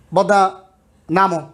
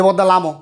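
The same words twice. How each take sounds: First: Said in the usual way. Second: বদ্দা লামো with l for n; Chittagong bus call. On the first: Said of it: "public বাসে চড়ো দেখবে যে". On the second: Shown as a demonstration. Teacher imitates a bus passenger's call. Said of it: "নামোর জায়গায় বলছে কি যে".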